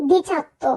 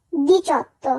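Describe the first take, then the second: First: "diciotto" said as di-chat-to; wrong cha sound. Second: "diciotto" said as di-chot-to; correct cho sound. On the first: Teacher showing the common error, "diciotto" with cha. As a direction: put an a after ch in "diciotto". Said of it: "চা উচ্চারণ করি". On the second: Teacher correcting eighteen, "diciotto" with cho. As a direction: put an open o after ch in "diciotto". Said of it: "আসলে চা উচ্চারণ হবে না". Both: Shown as a demonstration.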